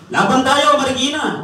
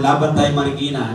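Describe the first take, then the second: First: High, loud crowd cheer; rally shout. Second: Said in the usual way. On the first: Retold or imitated. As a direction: chant it like a fired-up crowd. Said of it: "Ang dami sumisigaw na ganyan". (sigaw ng nagra-rally)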